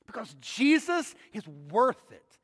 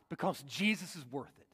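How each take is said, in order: First: Slower, each word "Because Jesus is worth it" weighted; emphatic repeat. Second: Softly, dropping the voice low; quiet first take. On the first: Preacher insists to the congregation, slow and emphatic. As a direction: land "Jesus" firmly, unhurried. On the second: Preacher murmurs why Paul fights, quietly. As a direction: let it sink in, almost to yourself. Preacher repeats key line. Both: Acted.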